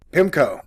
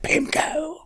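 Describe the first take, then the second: First: Said in the usual way. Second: "pimco" said softer and higher so the p doesn't pop; softer to spare the mic. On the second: Shown as a demonstration. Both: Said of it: "the word is, like, exploding in the mic".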